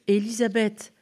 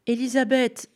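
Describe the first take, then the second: First: Put-on child calling again while running. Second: High, loud call across the hill; child calling a neighbour's name. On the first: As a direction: call her name again as he runs. Boy calls again, running. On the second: Acted. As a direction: shout her name from afar. Boy calls from the slope.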